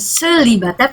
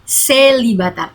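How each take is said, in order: First: The first e is said as a plain e. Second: The first e is said as a clear é. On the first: The speaker calls it wrong. "bukan célibataire" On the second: The speaker calls it right. "tapi célibataire karena ada aksen tinggi"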